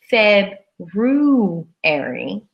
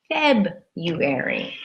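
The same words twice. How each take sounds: First: The first r is pronounced clearly. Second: The first r is left out. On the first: The speaker calls it wrong. "We don't say February" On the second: The speaker calls it right. "We say simply February"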